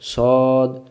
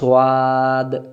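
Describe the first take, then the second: First: It sounds heavy, with rounded lips. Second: It sounds light, with an open mouth. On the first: The speaker calls it right. "মোটা করে পড়তে হবে" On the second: The speaker calls it wrong. "তখন ভুল হয়ে গেল"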